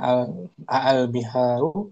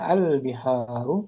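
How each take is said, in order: First: The opening vowel is drawn out long. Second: The opening vowel is short. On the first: It asks whether they are seas. "maka menjadi panjang" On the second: It simply names the seas.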